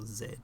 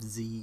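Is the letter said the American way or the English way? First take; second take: English; American. First: The letter is said the English way. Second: The letter is said the American way.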